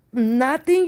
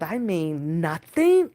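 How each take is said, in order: First: Nothing said higher and louder with a rise; emphatic repeat. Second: Said in the usual way. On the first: Shown as a demonstration. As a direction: repeat the word Nothing, punched high and loud.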